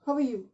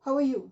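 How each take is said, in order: The two takes are said the same way.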